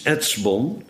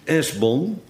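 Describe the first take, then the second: First: A ts sound comes before the b. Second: A plain s sound comes before the b. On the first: This is the original form. The speaker calls it right. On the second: This is the translated form. The speaker calls it wrong.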